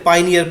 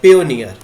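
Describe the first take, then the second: First: The first syllable sounds like 'pie'. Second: The first syllable sounds like 'pay'. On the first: The speaker calls it wrong. "पियोनियर को पाइनियर पाइनियर पढ़ रहे हैं ... ये बिल्कुल गलत है" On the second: The speaker calls it right. "तो आपने इसको सही करना है"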